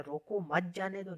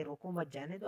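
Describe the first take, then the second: First: रोको set apart, then "मत जाने दो"; slower, मत joined to जाने दो; second meaning, don't let go. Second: "रोको मत" grouped, then "जाने दो", softly recapped; first meaning, let go. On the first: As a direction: break after रोको, group मत जाने दो together. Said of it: "अब कह रहा है". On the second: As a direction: quieter run-through with मत attached to रोको. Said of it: "पहले वो कह रहा था कि". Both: Shown as a demonstration.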